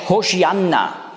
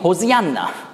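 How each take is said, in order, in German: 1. Der mittlere Konsonant ist ein 'sh'-Laut. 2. Der mittlere Konsonant ist ein einfacher 's'-Laut. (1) "das ist hebräisch Hosianna" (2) "Griechische Aussprache, weil man das S das nicht sagen kann"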